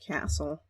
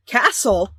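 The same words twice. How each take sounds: First: Said in the usual way. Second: Loud, higher-pitched outburst of disbelief; surprised yell. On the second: Acted. Heroine hears the word castle, yells in surprise. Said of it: "couldn't help but yell in surprise".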